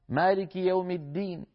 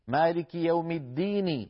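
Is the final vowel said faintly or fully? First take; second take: faintly; fully. First: The final vowel is said faintly with lowered voice. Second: The final vowel is said fully and strongly. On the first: "كسرة ولكن صوتها منخفض" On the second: "هكذا بحرف قوي كالحروف التي قبلها"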